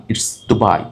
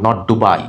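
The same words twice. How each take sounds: First: Dubai said the right way; correct pronunciation. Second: Dubai said the wrong way; wrong pronunciation. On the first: Teacher giving students the correct Dubai. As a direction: give the proper Dubai. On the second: Teacher showing students the wrong Dubai. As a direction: show the mistake in Dubai. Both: Shown as a demonstration.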